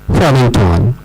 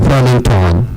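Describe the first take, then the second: The two takes are said the same way.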